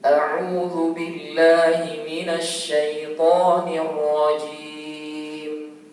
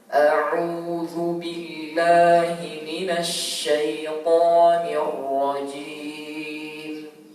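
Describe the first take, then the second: First: It is recited at a moderately quicker pace. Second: It is recited very slowly. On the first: "Yang tadwir agak cepat sedikit" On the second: "dengan sangat pelan ya"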